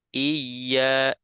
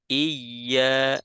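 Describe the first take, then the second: First: The doubled y is held gently and naturally. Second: The doubled y is held gently and naturally.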